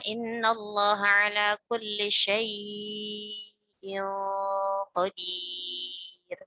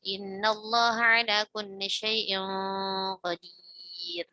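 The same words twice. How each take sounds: First: The vowel in 'syai' is held long. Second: The vowel in 'syai' is kept short. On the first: This follows another tradition of recitation. "dia dibaca panjang ya, empat atau enam harokat" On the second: This follows the speaker's own tradition of recitation. "Adapun kita tidak ya"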